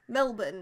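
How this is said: It is said in an Australian accent.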